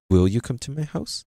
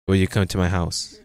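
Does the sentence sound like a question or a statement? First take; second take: question; statement. First: It is said with a questioning tune. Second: It is said with a flat statement tune. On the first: The speaker calls it right. "It's will you come to my house?" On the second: The speaker calls it wrong. "not will you come to my house?"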